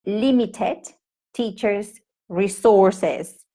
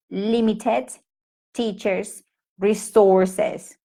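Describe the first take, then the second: No difference in how they are said.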